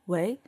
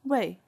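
First: The pitch rises through the syllable. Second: The pitch falls sharply through the syllable. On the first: It means to act as. "the second tone, means act as" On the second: It means for someone. "the fourth tone, 为 means for"

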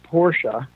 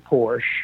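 First: The name is said the German way. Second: The name is said the American way. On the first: This is how it is said in its home country. The speaker calls it right. "if you're in Germany, it's Porsche" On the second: This is the Americanized version of the name. The speaker calls it wrong. "We Americanize it and say Porsche"

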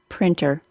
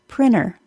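First: The T sound in the middle is clearly pronounced. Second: The T sound in the middle is dropped. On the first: The word is the focus of the answer. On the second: The word is not the focus of the answer.

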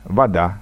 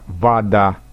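First: The first vowel is weak and not highlighted. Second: The first vowel sounds like an a. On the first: This is the most literary, Petersburg way of speaking. "предударное «о» никак не выделяем" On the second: This is the Moscow-region way of speaking. "акают"

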